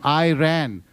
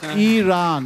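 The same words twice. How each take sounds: First: It sounds like the English words 'I ran'. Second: It does not sound like 'I ran'. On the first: The speaker calls it wrong. "Iran is a state of locomotion" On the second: The speaker calls it right. "It is Iran"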